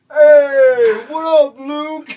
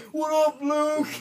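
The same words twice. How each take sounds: First: Very high, loud happy shout; shouted greeting. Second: High mocking replay of the call; mock greeting. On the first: Retold or imitated. Homeless man yelling a greeting back at the driver, high and loud. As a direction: holler back cheerfully from the sidewalk. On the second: Comedian replaying the wrong-name greeting, high. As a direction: echo his greeting for the punchline.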